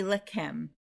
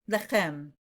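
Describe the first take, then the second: First: "lechem" with a hard K in the middle; K-sound pronunciation. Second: "Lechem" with a throaty CH in the middle; Hebrew CH. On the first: Teacher showing the easier option, "lechem" with K. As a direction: say "lechem" as "le-KEM". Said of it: "with a k sound". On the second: Teacher modelling the real word, "Lechem" with throaty CH. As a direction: say "Lechem" with a back-of-throat fricative, no K. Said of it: "Let's try to do it". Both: Shown as a demonstration.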